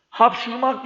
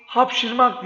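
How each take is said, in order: First: "Hapşurmak" with a clear u sound; wrong pronunciation. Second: Said in the usual way. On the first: Shown as a demonstration. Teacher demonstrates the dialect error "Hapşurmak" with u. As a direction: stress the u in "Hapşurmak" as the dialect mistake. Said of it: "Hapşurmak değil". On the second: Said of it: "hapşırmak diye yazılır".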